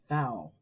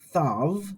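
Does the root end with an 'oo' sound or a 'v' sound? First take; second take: oo sound; v sound. First: The root ends in an 'oo' vowel sound. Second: The root ends in a 'v' consonant sound. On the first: This follows the Erasmian school pronunciation. "if you learned Erasmian pronunciation, you probably learned this as thou" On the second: This follows the pronunciation used in the lesson. "not thou"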